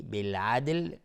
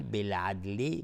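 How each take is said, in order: First: بالعدل whispered without voice. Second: Said in the usual way. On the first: Shown as a demonstration. Teacher repeating بالعدل for students, in a whisper. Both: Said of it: "دقت کنید روی بالعدل".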